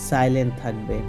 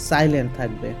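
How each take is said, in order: No difference in how they are said.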